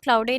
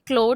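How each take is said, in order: First: It has an 'ow' vowel and an extra final syllable. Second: It is one syllable with an 'oh' vowel. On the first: The speaker calls it wrong. "क्लाउडे नहीं pronounce करते हैं" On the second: The speaker calls it right. "Pronounce करते हैं क्लोड"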